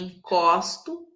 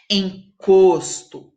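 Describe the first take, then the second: First: The stressed O vowel is open. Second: The stressed O vowel is closed. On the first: "um som aberto" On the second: "o O tem um som fechado"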